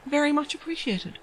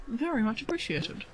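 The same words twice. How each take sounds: First: Said in the usual way. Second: Softer echo of the thanks; soft repeat. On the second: Real, not acted. Streamer repeats her thanks to the donor, softly to herself. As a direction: say it again under the breath.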